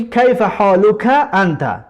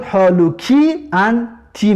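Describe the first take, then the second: First: کیف حالوک انت slowed, plain endings; teacher sounds out masculine کیف حالوک انت; slow Arabic demo. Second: حالوکی انتی drawn out, final ی sounds stretched; teacher stresses the feminine ی endings in حالوکی انتی; slow Arabic demo. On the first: Teacher contrasts masculine greeting for students, slow. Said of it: "مردانه که باشد". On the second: Teacher contrasts feminine greeting for students, slow. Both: Shown as a demonstration.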